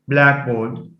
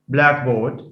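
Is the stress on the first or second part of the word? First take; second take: first; first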